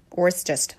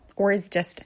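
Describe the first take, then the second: First: The vowel of 'is' is swallowed, sounding quick. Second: The vowel of 'is' is pronounced fully.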